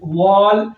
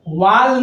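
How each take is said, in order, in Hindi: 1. स्वर एक गोल होंठों वाली 'aw' ध्वनि है। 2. स्वर एक खुली 'ah' ध्वनि है। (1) "इस ए को हम अ पढ़ेंगे" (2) "वाल नहीं बोलते हैं"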